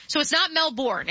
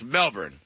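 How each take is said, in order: First: Melbourne with the R sounded, Mel-born; rhotic Melbourne. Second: Melbourne said Mel-bn, no R; Aussie Melbourne. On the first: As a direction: say Melbourne with a full American R. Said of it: "definitively not that". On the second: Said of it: "it's not Melbourne, it's Melbourne". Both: Shown as a demonstration.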